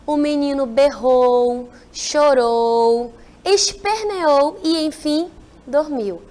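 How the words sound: Short pauses separate each verb in the sentence. The speaker calls it right. "Não dá uma descansada no texto?"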